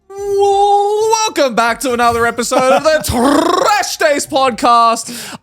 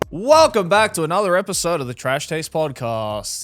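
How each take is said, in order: First: It is said lively with high energy. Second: It is said flatly with low energy. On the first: The speaker calls it right. "More energy, please" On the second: The speaker calls it wrong. "Why do you sound so bored?"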